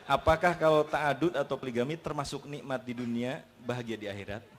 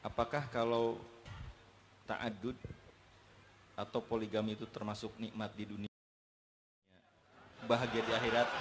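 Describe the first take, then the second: First: It is read loudly. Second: It is read softly and quietly.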